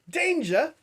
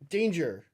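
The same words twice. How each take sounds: First: It is said in Steven's put-on character voice. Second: It is said in the speaker's plain voice.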